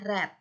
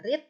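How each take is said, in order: First: It is pronounced as the past-tense form. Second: It is pronounced as the present-tense form. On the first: It is the past or past participle form. "verb dua dan verb tiga dibaca read" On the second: It is the base form of the verb. "Verb satu dibaca read"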